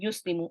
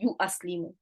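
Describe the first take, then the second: First: The glottal stop is dropped, giving three syllables. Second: The word keeps a glottal stop, giving four syllables. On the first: The speaker calls it right. "you just say yuslimu" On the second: The speaker calls it wrong. "you do not say you aslimu"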